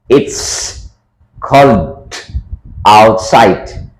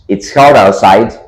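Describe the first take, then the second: First: It is said slowly, word by word. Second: It is said with the words linked together. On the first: "I make it slower" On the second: "It becomes"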